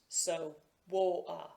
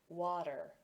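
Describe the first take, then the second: First: The middle t is replaced by a glottal stop. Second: The middle t is a soft d-like flap. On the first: "a glottal stop, where the sound is actually stopped" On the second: "a flap, ... something between a T and a D"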